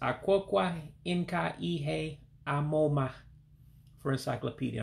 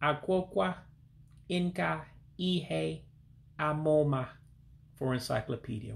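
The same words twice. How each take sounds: First: It is said at normal speed. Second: It is said slowly.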